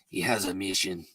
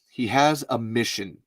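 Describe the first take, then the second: First: It is read in a put-on accent. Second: It is read in a regular accent.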